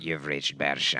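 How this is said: The voice sounds muffled, like a phone.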